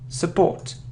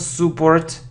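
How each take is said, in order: First: The first vowel is a reduced uh sound. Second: The first vowel is a full vowel. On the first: The speaker calls it right. "it's su support" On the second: The speaker calls it wrong. "It isn't support"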